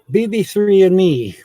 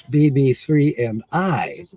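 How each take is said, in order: First: "B B three and me" said a bit higher and louder as the wrong version; casual, careless "and me"; wrong grammar. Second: "B B three and I" said slowly, each word placed, ending on "I"; careful corrected version; proper English. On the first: Correcting her own grammar, wrong version first. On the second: Correcting her own grammar, slow proper version. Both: Shown as a demonstration. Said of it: "That's not proper English".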